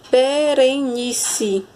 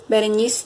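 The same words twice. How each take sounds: First: Slow, drawn-out "Berenice" in four beats; teacher sounding out be-re-ni-ce; syllable by syllable. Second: Said in the usual way. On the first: Shown as a demonstration. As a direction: stretch each syllable of "Berenice".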